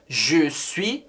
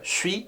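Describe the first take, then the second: First: Both words are said fully and separately. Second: It is said fast, run into one syllable.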